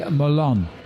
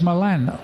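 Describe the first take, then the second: First: It is said the American way. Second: It is said the non-American way. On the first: "because they say Milan" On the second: "It's Milan or Milano"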